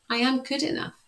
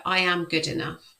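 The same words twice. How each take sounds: First: Affirmation, pitched higher. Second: Affirmation. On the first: Coach repeating affirmation for children, higher. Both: Shown as a demonstration. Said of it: "you can say things like".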